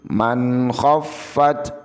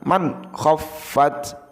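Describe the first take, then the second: First: The n sound flows smoothly into the next. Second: The n sound is stopped with an abrupt jolt. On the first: The speaker calls it right. "Jadi man khaffat" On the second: The speaker calls it wrong. "bukan man khaffat"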